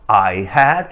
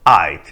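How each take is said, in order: First: The word had is said in full. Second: The word had is contracted to a d. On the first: "Forma normal" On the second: "ou a forma abreviada"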